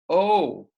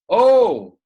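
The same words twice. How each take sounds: First: Said in the usual way. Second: Sudden high, loud "Oh!"; playful hammed-up yelp; mock yell. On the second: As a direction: yell it out like a startled boy. Acted yell in example sentence.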